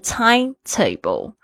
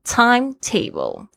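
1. 重音落在第一部分 time。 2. 重音落在第一部分 time。

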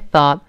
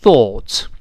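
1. 这个元音是一个开口不圆唇的 'ah' 音。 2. 这个元音是一个长的圆唇 'aw' 音。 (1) "在美国呢就变成一个像恍然大悟那个啊" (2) "在英式发音应该是一个o，半圆加两个点，这个长音thought"

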